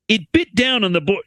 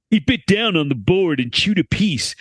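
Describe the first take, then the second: First: Said in the usual way. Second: Laid-back surfer dude reading. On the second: Shown as a demonstration. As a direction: read it like a chill surfer dude. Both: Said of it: "I have to read this like a surfer dude".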